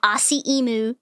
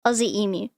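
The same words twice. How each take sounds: First: Aussie emu as "ah-see ee-moo"; AUSSIE EMU with an s and no y-glide; wrong pronunciation. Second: Aussie emu as "ozzy eem-yoo"; AUSSIE EMU with z and y-glide, lower; correct Australian pronunciation. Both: Shown as a demonstration. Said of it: "not Aussie emu".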